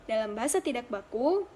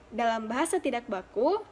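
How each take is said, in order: Both takes have the same delivery.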